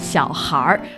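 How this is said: The word ends with an r-sound. It is the way northern speakers say it. "that'll be a very northern way"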